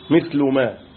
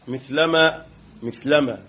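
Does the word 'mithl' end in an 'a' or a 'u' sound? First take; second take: u; a. First: The word mithl ends with a 'u' vowel. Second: The word mithl ends with an 'a' vowel. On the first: It describes the word truth itself. "مرفوعة مثل ما بضم اللام" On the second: It describes the state of the truth. "مثلما منصوبة على الايه؟ على الحال"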